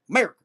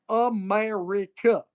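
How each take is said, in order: First: The word is squeezed into one syllable. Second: The word is said in full, several syllables. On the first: "It's one syllable" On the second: "We don't got time to say America"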